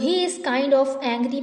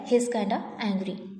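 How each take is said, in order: First: The words 'kind of' are said in full. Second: The words 'kind of' are reduced to 'kinda'. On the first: The speaker calls it wrong. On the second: The speaker calls it right.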